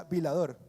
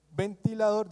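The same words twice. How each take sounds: First: "vilador" said in place of "ventilador", dropping the middle syllables; mispronounced "vilador"; child's mispronunciation. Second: Said in the usual way. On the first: Shown as a demonstration. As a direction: say "vilador" as a toddler would for "ventilador". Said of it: "decía vilador". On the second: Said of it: "En vez de decir".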